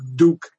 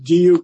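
First: No y sound comes before the vowel. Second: A y sound comes before the vowel. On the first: The speaker calls it wrong. "not Duke" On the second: The speaker calls it right. "it's got to have that Y in it"

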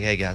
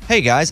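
First: It is said in a flat, tired voice. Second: It is said in a bright, happy voice. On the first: "Mostly it's like, hey guys, I'm tired" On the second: "I would like for people to think I sound happy like that"

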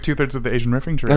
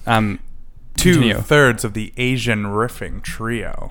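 First: The phrase is spoken at a normal pace. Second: The phrase is spoken at a slower pace.

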